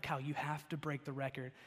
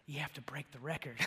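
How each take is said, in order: First: Said in the usual way. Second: Hushed, secretive whisper of a dare. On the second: Retold or imitated. Egging on friend Kyle to jump, whispered. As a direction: egg him on under your breath.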